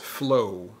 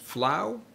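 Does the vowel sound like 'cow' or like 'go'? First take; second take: go; cow. First: The vowel rhymes with go, not with cow. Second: The vowel rhymes with cow, as in flour. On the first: The speaker calls it right. "it's pronounced flow" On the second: The speaker calls it wrong. "Is it pronounced flow, like flour? No"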